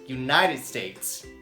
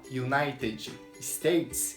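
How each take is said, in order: First: The two words run together as one. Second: The two words are said separately. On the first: "É como se fosse uma palavra só" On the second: "Em vez de eu falar"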